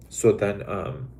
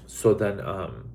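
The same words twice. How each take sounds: The two takes are said the same way.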